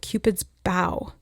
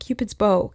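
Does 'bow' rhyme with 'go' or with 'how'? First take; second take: how; go. First: The word bow rhymes with how. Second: The word bow rhymes with go. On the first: A bending gesture of respect. The speaker calls it right. "a bow can be about like a show of respect" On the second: The weapon that shoots arrows. The speaker calls it wrong. "not Cupid's bow"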